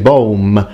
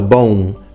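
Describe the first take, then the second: First: The final M is fully closed and pronounced. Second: The final M fades into a nasalized vowel. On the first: The speaker calls it wrong. "As an Italian, that's how I would naturally pronounce it" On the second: The speaker calls it right. "the M is fully nasalized, so it needs to be mm"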